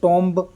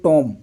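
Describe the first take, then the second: First: The word ends with an audible b sound. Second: The word ends without any b sound. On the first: The speaker calls it wrong. "टॉम्ब ऐसा नहीं बोला ना" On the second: The speaker calls it right. "बी तो बोला नहीं है"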